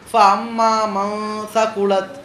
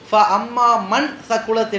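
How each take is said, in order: First: The n in man is concealed, barely heard. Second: The n in man is pronounced clearly. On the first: The speaker calls it right. "அந்த மண்ணை இன்ன அப்படி மறைச்சு" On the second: The speaker calls it wrong. "என்று படிக்கக்கூடாது"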